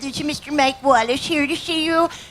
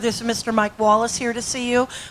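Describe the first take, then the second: First: It is said in a put-on, imitated voice. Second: It is said in the speaker's plain voice.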